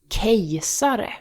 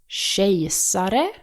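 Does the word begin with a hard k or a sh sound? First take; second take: hard k; sh sound. First: The word begins with a hard k sound. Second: The word begins with a soft sh sound. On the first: The speaker calls it wrong. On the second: The speaker calls it right.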